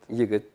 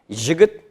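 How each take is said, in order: First: It begins with a 'y' sound, Bashkir style. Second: It begins with a 'zh' sound, Menzelinsk dialect.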